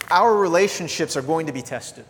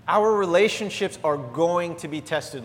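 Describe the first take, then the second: First: Said in the usual way. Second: Each word of "Our relationships are going to be tested" set down slowly; preacher repeating the point so it sinks in; slower, weighty repeat. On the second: Shown as a demonstration. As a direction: drive it home the second time. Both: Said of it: "stated then repeated for weight".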